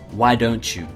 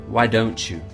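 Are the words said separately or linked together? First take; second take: linked; linked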